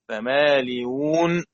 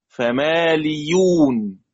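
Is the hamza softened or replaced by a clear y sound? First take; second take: softened; y sound. First: The hamza is softened, halfway to a vowel. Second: The hamza is replaced by a clear y sound. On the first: "تسهيل بين بين" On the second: "بإبدال الهمزة ياء خالصة"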